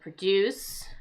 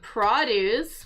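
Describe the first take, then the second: First: The stress is on the second syllable. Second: The stress is on the first syllable. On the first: It is the verb, meaning to make something. "to produce something with the accent here" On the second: It is the noun, meaning fruits and vegetables. "which is a noun"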